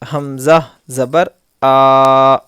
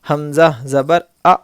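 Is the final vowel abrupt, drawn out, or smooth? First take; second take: drawn out; abrupt. First: The final vowel is stretched out long. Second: The final vowel is cut off with a jerk. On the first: "ये खींच रहे हैं हम लोग, इस तरह बिल्कुल भी नहीं होना" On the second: "ये इस तरह से झटका बिल्कुल भी नहीं होना"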